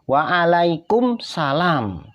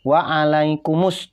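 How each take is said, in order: First: The m runs straight into the s sound. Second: The m is followed by a vowel before s. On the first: The speaker calls it wrong. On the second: The speaker calls it right. "mimnya hidup"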